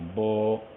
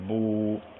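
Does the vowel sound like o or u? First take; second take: o; u. First: The vowel drifts toward an o sound. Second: The vowel is a fully rounded u. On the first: The speaker calls it wrong. "होंठ पूरी तरह गोल नहीं होंगे" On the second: The speaker calls it right. "सामने के रुख की आवाज़ है"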